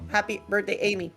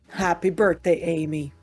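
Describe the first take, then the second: First: It is said in a normal voice. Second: It is said in a put-on shadow voice.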